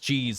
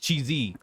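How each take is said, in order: First: The final e is silent. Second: The final e is sounded as a syllable. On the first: The speaker calls it wrong. "I mispronounced cheese" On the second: The speaker calls it right. "It's cheesy"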